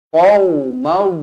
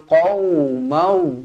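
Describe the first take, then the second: Both takes have the same delivery.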